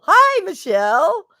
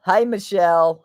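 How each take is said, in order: First: Very high, loud, drawn-out hello; excited greeting. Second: Said in the usual way. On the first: Real, not acted. Streamer greeting viewer Michelle, excited high-pitched hello. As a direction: sing out the greeting high and long. Same greeting repeated, exaggerated.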